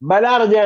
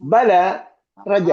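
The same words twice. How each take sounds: First: The two words run together without a break. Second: A clear stop comes after the first word. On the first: The speaker calls it wrong. "ബല റജ എന്നല്ല കേട്ടോ" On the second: The speaker calls it right. "ബല കഴിഞ്ഞിട്ട് full stop ആണ്"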